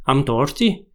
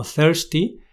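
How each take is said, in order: First: Imitated Irish "thirsty" with T for TH; acento irlandés imitado. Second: "thirsty" with a clear TH; pronunciación estándar. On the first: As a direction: say it Irish-style, "tirsty". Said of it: "parecía que decían T". (imitando acento irlandés, "thirsty" con te) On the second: Shown as a demonstration. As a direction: say "thirsty" starting on a th. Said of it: "sería algo así como". ("thirsty" empezando con zeta)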